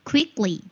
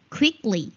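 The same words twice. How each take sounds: The two takes are said the same way.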